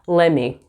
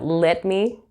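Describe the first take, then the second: First: The words are run together as 'lemme'. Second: Both words are said fully and separately. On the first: "you'll hear lemme" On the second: "instead of let me"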